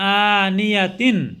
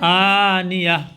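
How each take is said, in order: First: The word ends with a t-sound, 'tin'. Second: The word ends with a soft h-sound. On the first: The reading continues without stopping. "তা দুই জের তিন" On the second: The reading stops at the end of the verse. "গোল তাটাকে হা দিয়া বদলে বললাম"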